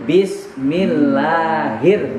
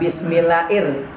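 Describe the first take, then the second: First: An h sound is heard before the final ir. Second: No h sound is heard before the final ir. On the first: The speaker calls it right. "di situ tidak ada huruf alifnya, tapi adanya huruf H" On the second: The speaker calls it wrong.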